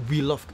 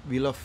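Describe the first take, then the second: No difference in how they are said.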